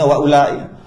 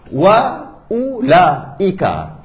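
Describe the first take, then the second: First: The final vowel is cut off. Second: The final vowel is fully sounded. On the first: The speaker calls it wrong. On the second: The speaker calls it right.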